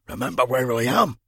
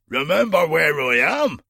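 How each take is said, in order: First: It is said at a softer volume. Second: It is said at a louder volume.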